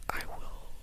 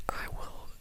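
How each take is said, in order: Both takes have the same delivery.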